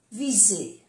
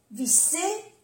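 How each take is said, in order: First: "viser" falling, with a voiced z; soft Z. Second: "visser" rising high, with an unvoiced s; double S. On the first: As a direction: say "viser" with a buzzing z. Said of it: "se pronuncia como una Z suave". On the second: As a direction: lift "visser" with a hiss in the middle. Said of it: "una S o doble S". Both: Shown as a demonstration.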